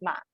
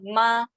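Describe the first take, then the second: First: The syllable dips low, then rises. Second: The syllable stays high and level. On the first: It means horse. "this one is third tones" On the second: It means mother. "slightly change the tones become 妈 ... first tone"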